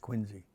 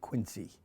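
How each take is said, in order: First: The middle consonant is a buzzing Z sound. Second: The middle consonant is a hissing S sound. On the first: The speaker calls it right. "it's more like a Z sound. It's Quincy" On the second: The speaker calls it wrong. "It's always mispronounced. People say Quincy"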